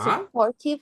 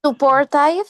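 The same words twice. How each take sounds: First: "Supportive" with -tive as short "tiv"; corrected pronunciation. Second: "supportive" ending like "five"; mispronounced supportive. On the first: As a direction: say "Supportive" ending like "give". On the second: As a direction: say "supportive" with -tive as "tyve". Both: Real, not acted.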